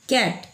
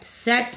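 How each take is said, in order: First: The word begins with a k sound. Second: The word begins with an s sound. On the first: The speaker calls it right. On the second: The speaker calls it wrong. "सेट नहीं"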